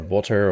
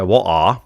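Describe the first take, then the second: First: "water" with t sounded and final r pronounced; alternative "water". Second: "What are" with a silent stop for the t; British "water". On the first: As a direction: say "water" with a clear t and an r ending. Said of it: "or whatever". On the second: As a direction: demo British water as "What are", open r-less ending. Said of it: "now I sometimes say". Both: Shown as a demonstration.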